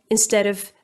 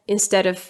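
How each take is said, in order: The two takes are said the same way.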